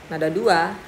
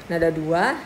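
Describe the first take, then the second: No difference in how they are said.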